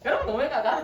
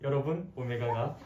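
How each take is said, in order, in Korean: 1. 목소리가 높고 빠르다. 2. 목소리가 낮고 느리고 느끼하다. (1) "이 점 영 배속 하면 기본적으로 하이톤이 나오잖아요" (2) "일 점 영으로 다시 돌리니까 ... 징그러워서"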